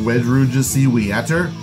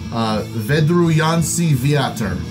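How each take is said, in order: First: The name is said with an English pronunciation. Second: The name is said with a Polish pronunciation. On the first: The speaker calls it wrong. "I have been saying" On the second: The speaker calls it right. "I also found out how to pronounce"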